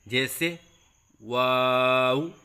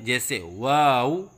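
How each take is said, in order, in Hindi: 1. लंबे स्वर को स्थिर आवाज़ में खींचा जाता है। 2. लंबे स्वर को डगमगाती आवाज़ में खींचा जाता है। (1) "तीन अलिफ के बराबर लंबा करके पढ़ें" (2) "आवाज़ में लहराव सा पैदा करते हैं, ये गलत है"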